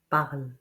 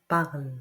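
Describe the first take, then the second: The two takes are said the same way.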